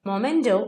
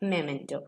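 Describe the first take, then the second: First: The first syllable has an 'o' vowel. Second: The first syllable has an 'e' vowel. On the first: The speaker calls it wrong. "മൊമെന്റോ അല്ല" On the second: The speaker calls it right.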